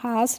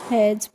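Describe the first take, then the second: First: It has a long 'ah' vowel and ends in s. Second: It has a short 'a' vowel and ends in z. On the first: The speaker calls it wrong. "हास नहीं पढ़ते हैं" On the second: The speaker calls it right. "हैज पढ़ते हैं"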